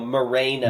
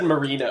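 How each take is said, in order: First: The middle syllable sounds like 'ray'. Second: The middle syllable sounds like 'ree'. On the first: The speaker calls it right. "like Ray, like Raygun, okay. Not Reed" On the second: The speaker calls it wrong. "You said Marino"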